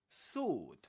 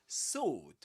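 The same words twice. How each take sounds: The two takes are said the same way.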